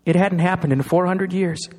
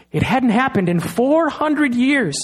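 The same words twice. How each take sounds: First: Said in the usual way. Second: Slower and higher, leaning hard on "four"; stress on four. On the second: Shown as a demonstration. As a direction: drive home "four hundred years" slowly. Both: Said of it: "repeats the line for emphasis".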